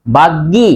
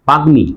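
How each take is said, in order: First: বাগ্গি with doubled g and no m; wrong pronunciation. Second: বাগ্মি with g then a clear m; correct pronunciation. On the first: Teacher asks students whether it is said so, wrong doubled-g বাগ্গি. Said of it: "না বাগ্মি?". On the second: Teacher gives students the answer, m clearly sounded in বাগ্মি. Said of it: "তাহলে এটা হবে". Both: Shown as a demonstration.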